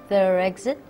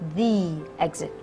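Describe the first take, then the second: First: The word 'the' has a short vowel. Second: The word 'the' has a long 'ee' vowel. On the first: The speaker calls it wrong. "If you've always been saying" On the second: The speaker calls it right. "remember the next time to say"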